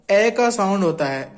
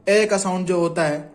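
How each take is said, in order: First: का stressed, slow and falling; slow careful teacher stress on का. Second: Said in the usual way. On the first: Shown as a demonstration. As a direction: lean on का, drawn out slowly.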